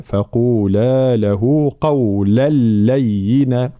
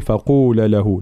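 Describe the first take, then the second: First: Slow فقولا له with the long a held; full madd. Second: فقولا له with the long a clipped short; wrong short madd. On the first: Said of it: "فلا بد من بيان المد". (فقولا بمد واضح وبطء) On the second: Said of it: "لا نقول". (فقولا بلا مد خطأً) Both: Shown as a demonstration.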